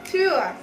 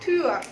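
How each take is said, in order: No difference in how they are said.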